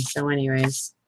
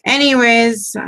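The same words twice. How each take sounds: First: Said in the usual way. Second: Anyways said higher and louder with a falling end; Anyways, louder and higher, closing the tangent; emphatic anyways. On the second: Real, not acted. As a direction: snap back on topic with Anyways. Loud restart after tangent.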